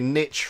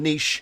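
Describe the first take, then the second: First: It is said with an American pronunciation. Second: It is said with a British pronunciation.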